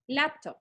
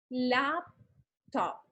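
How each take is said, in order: First: "laptop" said clearly, as the class repeats it; demo word laptop. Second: "Laptop" drawn out, each syllable opened wide; slow demo laptop. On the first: Teacher modeling "laptop" for students' chin exercise. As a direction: say "laptop" slowly, two clear syllables. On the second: Teacher repeating "Laptop" slowly for the chin exercise. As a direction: stretch "Laptop" so the chin drops twice. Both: Shown as a demonstration. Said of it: "van a pronunciar la palabra".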